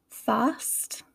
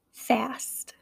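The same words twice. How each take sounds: First: British "fast" with long ah; English accent, broad a in "fast". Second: American "fast" with short a; American accent, front vowel in "fast". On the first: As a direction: say "fast" as in England, "fahst". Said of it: "pronunciation would be in England". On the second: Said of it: "how I would say it". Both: Shown as a demonstration.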